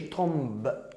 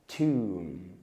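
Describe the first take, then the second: First: A b sound is heard at the end. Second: No b sound is heard at the end. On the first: The speaker calls it wrong. "ما تقولش تومب" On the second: The speaker calls it right. "اوعى تنطق حرف البي"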